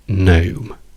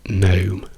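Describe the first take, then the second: Both takes have the same delivery.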